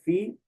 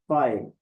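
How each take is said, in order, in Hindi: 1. स्वर एक लंबी 'ee' की आवाज़ है। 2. स्वर एक 'eye' वाला डिफ़थॉन्ग है। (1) "कुछ लोग बोलते हैं फी" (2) "लेकिन कुछ इसको बोलते हैं फाए"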